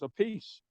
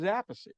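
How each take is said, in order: First: The name sounds like the words 'a piece'. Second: The name does not sound like 'a piece'. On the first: This is the easier version a famous singer heard. "So he changed it to a piece" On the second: This is how most of the family says it. "he was Appice, that's what I say"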